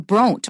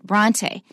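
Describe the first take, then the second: First: The name ends without a final vowel syllable. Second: The final e is said as its own syllable. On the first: The speaker calls it wrong. "Without those two dots, we'd probably say Bront" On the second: The speaker calls it right. "we have to pronounce it as a separate syllable"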